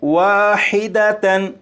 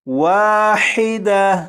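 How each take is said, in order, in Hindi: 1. शब्द पूरी 'tan' आवाज़ पर खत्म होता है। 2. शब्द सादे 'a' स्वर पर खत्म होता है। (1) "ये लफ्ज़ है वाहिदतन" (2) "वक्फ में इसे पढ़ेंगे वाहिदा"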